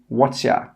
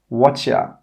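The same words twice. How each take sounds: First: The word 'your' is reduced to 'ya'. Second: The word 'your' is reduced to 'ya'.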